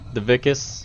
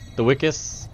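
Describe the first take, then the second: First: The word begins with a V sound. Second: The word begins with a W sound. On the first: "It's spelled with a V" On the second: "you say it with a W"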